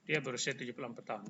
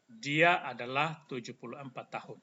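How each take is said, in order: First: Fast, run together; quick throwaway Indonesian; quick aside. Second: Said in the usual way. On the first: Shown as a demonstration. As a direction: rattle off "dia berusia tujuh puluh empat tahun". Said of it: "Bukan cara omongnya". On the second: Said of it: "Sama dengan ini cara omongnya".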